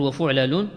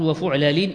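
First: وفعلل as wa-fuʕlalun, ending in -un; وفعلل closed on a rounded -un; nominative ending. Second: وفعلل as wa-fuʕlalin, ending in -in; وفعلل closed on an -in; genitive ending. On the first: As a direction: say وفعلل with a final -un. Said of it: "يصح لك فيها الرفع". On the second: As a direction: say وفعلل with a final -in. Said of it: "إذا عطفته على مشبه شغلا". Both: Shown as a demonstration.

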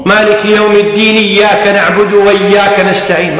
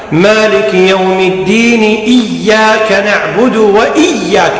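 First: Quicker joined reading, no hamza on إياك; swallowed hamza. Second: Slow chant, distinct glottal onset on إياك; clear hamza. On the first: Teacher shows what is unacceptable, hamza of إياك dropped. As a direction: run الدين straight into إياك. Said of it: "ما يصير". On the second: Teacher models required reading, clear hamza on إياك. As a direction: sound the hamza of إياك after الدين. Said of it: "لا بد أن تقرأ هكذا". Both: Shown as a demonstration.

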